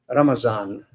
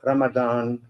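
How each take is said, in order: First: The middle consonant is a Z sound. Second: The middle consonant is a D sound. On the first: This is Southeast Asia's name for the month. "in Southeast Asia we call Ramazan"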